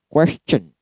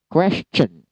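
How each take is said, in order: First: The middle sound is a 'ch' sound. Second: The same.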